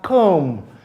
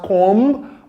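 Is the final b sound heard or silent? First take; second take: silent; heard. First: The final b sound is silent. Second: The final b sound is pronounced. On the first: The speaker calls it right. "it is pronounced as come" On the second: The speaker calls it wrong. "You don't pronounce it as comb"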